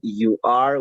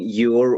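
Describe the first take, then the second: First: Both words are said separately and in full. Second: The words merge into one short syllable. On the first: "el pronombre más el verbo to be" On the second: "de la manera contraída o con contracción"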